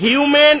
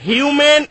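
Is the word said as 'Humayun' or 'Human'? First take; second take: Human; Human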